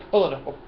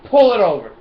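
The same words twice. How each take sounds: First: Said in the usual way. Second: Loud, higher barking cop order; playful pull-over command; mock cop. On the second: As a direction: bark it like a traffic cop.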